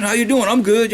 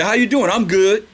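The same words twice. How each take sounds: First: Lightly voiced breezy exchange; casual greeting. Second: Lightly voiced everyday greeting; a hint of a breezy hello and reply; casual greeting. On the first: Preacher repeats the modern greeting, lightly mocking. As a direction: toss it off like small talk. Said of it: "You see what I'm saying?". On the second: Preacher mimics modern greeting to congregation, lightly casual. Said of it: "We say".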